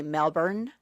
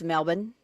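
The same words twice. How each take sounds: First: Melbourne with the R sounded; R pronounced. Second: Melbourne as "MEL-bun", no R; dropped R. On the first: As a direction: say "Melbourne" with a full American R. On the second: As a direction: swallow the R in "Melbourne", Aussie style. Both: Shown as a demonstration. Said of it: "they kinda drop their R's".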